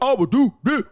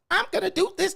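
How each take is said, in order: First: It is said in a tough, hard voice. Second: It is said in a whiny, thin voice.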